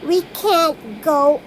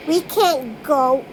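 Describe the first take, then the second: No difference in how they are said.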